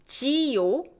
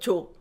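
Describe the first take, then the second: First: The ending is said as two full syllables. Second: The ending is squeezed into one syllable.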